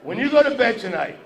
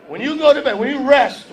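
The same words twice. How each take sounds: First: Said in the usual way. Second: Rising loud push. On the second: Shown as a demonstration.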